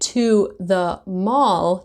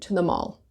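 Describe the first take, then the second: First: To the is said with full vowels. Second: To the is said weak and run together.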